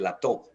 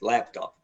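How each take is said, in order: First: The stress is on the second syllable. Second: The stress is on the first syllable. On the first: The speaker calls it wrong. "We don't say laptop" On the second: The speaker calls it right. "The stress is on the first syllable"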